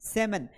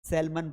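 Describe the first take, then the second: First: The L is silent in the middle. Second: The L is pronounced in the middle. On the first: The speaker calls it right. "एल यहां पर क्या है? साइलेंट है" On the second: The speaker calls it wrong. "This is not the right pronunciation"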